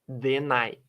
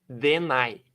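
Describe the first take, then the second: Both takes have the same delivery.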